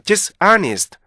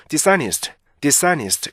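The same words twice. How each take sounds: First: "dishonest" broken sharply into DIS and AH-nist; two-stress "dishonest" with a gap; learner's split reading. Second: "dishonest" easily linked as di-SA-nist; easy native reading. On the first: Retold or imitated. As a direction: imitate a learner separating dis from honest in "dishonest". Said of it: "this하고 honest가 너무 뚝 떨어져요". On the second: Shown as a demonstration. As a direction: say "dishonest" as one effortless joined word. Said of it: "굉장히 편하게".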